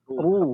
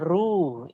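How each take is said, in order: First: The r sound is heavy and thick. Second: The r sound is light and thin. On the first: The speaker calls it right. "Bunyinya jadi tebal" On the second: The speaker calls it wrong. "Jangan ru. Itu tipis, masih tipis"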